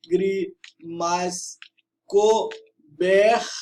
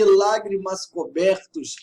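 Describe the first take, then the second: First: "lágrimas cobertos" very slow, each syllable separate; syllable-by-syllable scansion. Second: Said in the usual way. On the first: Shown as a demonstration. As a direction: count out "lá, gri, mas, co, ber, tos". ("lágrimas cobertos" escandido, sílaba por sílaba) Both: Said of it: "fazer a escansão do verso".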